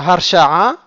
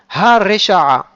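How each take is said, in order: First: The first vowel is dropped, giving three syllables. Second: A full vowel follows the h, giving four syllables. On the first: The speaker calls it wrong. "on ne dit pas Harsha'a" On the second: The speaker calls it right. "il porte un kamatz"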